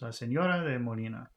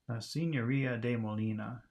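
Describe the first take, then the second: First: Only one syllable carries stress. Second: Several syllables carry stress. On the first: "we've just got that one stress" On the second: "an English speaker would say"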